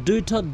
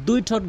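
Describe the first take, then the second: The two takes are said the same way.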